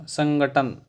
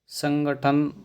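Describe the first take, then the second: Both takes have the same delivery.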